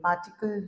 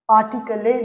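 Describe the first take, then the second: First: The word ends on the l with no vowel. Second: The final e is sounded as an extra syllable. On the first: The speaker calls it right. "पार्टिकल ही बोलेंगे" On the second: The speaker calls it wrong. "पार्टिकले नहीं बोलेंगे"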